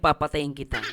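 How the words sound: It is said softly and gently.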